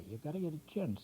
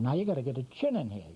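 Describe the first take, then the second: First: Much softer murmured "You gotta get a chin" to himself; quiet aside to self; soft repeat. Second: Brisk, fast run-through of the step; fast spoken drawing tip; quick instruction. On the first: Instructor repeats the step to himself. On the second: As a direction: rattle off "now you gotta get a chin in here" quickly. Drawing instructor stating next step. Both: Real, not acted.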